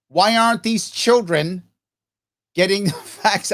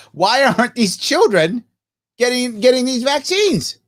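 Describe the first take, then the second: First: Breaking into a laugh mid-question; can't keep a straight face. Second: Said in the usual way. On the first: Shown as a demonstration. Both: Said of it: "I can't even say it with a straight face".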